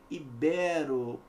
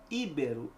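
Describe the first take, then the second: First: The stress is on the second syllable. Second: The stress is on the first syllable. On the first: The speaker calls it right. "paroxítona terminada em O" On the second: The speaker calls it wrong. "não é íbero"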